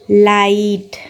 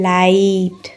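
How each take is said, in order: First: लाइट repeated at normal speed, long i sound; quick repeat of लाइट for practice; repeated example. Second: लाइट said slowly and clearly, long i sound; teacher models लाइट for the class; example word. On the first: (लाइट दोबारा, सामान्य गति से) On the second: (लाइट धीरे और साफ़ बोलना) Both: Shown as a demonstration. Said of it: "common example देखते हैं".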